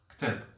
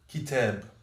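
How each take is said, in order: First: No vowel is heard between k and t. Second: A vowel is heard between k and t. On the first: This is the Moroccan Arabic form. "Mais en arabe marocain, on va dire ktab" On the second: This is the classical Arabic form. "c'est la prononciation en arabe classique"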